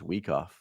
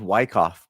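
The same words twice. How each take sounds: First: The first syllable sounds like 'wee'. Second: The first syllable sounds like 'why'. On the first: This is the correct pronunciation. The speaker calls it right. "I'm pretty sure it's Wyckoff. We we we" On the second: This is how most people say it. The speaker calls it wrong. "everyone says Wyckoff"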